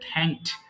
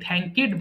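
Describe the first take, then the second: First: The ending is a short 't' sound. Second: The ending is an extra 'ed' syllable. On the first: The speaker calls it right. "এটা অবশ্যই হবে থ্যাঙ্কড" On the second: The speaker calls it wrong. "ভুল করে অনেকে থ্যাঙ্কেড বলে ফেলে"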